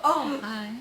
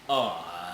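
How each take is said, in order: First: It is said in a soft, girlish voice. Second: It is said in a deeper, manly voice.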